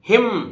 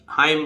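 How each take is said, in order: First: The vowel is a short i, like 'him'. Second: The vowel is a diphthong, like 'hime'. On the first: "N नहीं बोलेगा यहां भी" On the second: "इसको हाइम भी बोलते हैं"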